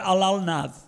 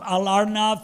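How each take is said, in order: First: It has an l sound, the Bengali way. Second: It has an r sound, the Odia way.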